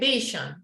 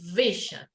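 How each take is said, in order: First: The first sound is not a teeth-on-lip V. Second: The first sound is a teeth-on-lip V. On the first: The speaker calls it wrong. "you don't say vision" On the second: The speaker calls it right. "you say vision. It's a different sound"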